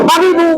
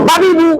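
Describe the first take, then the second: Both takes have the same delivery.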